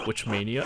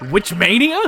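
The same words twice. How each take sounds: First: Said in the usual way. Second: "Witch mania?" asked higher and louder, rising on "mania"; incredulous echo. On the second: Real, not acted. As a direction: throw "Witch mania?" back in disbelief. Incredulous repeat of read line.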